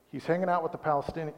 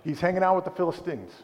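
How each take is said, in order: First: Says "Palestinians" by mistake, quick and plain; the wrong word "Palestinians", rattled off fast; slip of the tongue. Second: "Philistines" said carefully as the right word; corrected word. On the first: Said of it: "or with, I said, I told you I was gonna say it". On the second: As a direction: land the correction "Philistines" a little higher. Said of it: "I told you I was gonna say it". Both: Shown as a demonstration.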